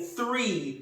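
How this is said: The word begins with a th sound. "instead of saying three"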